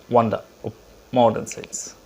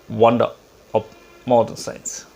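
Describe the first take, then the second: The two takes are said the same way.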